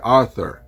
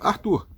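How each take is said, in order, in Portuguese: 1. O nome é pronunciado com sons ingleses. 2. O nome é pronunciado com sons portugueses. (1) "Se eu estivesse nos Estados Unidos, seria Arthur" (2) "aqui no Brasil, eu sou chamado Arthur"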